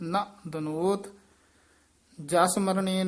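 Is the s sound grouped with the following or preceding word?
preceding. The s sound ends the preceding word. The speaker calls it wrong.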